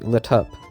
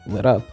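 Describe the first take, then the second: First: The T is aspirated with a puff. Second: The T is a quick flap. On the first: "or with an aspirated T" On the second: "with a flap"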